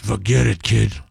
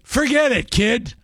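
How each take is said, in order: First: It is said in a big, gruff voice. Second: It is said in an ordinary voice.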